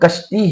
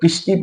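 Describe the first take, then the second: First: The first vowel is an a sound. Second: The first vowel is an i sound. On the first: The speaker calls it right. "ये असल में कश्ती है" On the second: The speaker calls it wrong. "बहुत से लोग किश्ती पढ़ते हैं"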